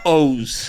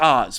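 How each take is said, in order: First: The vowel is a long oh sound. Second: The vowel is short, as in Wizard of Oz. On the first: The speaker calls it wrong. "It's not O's" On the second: The speaker calls it right. "it's Oz, bro"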